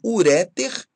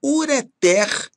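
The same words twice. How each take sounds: First: "uréter" stressed on RÉ; stress on middle syllable. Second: "ureter" stressed on final TER; stress on last syllable. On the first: Teacher showing what not to say, "uréter" stressed on RÉ. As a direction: wrongly hit RÉ in "uréter". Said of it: "e não uréter". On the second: Teacher giving the correct form, "ureter" as u-re-TÉR. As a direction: hit TER at the end of "ureter". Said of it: "ureter e não uréter". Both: Shown as a demonstration.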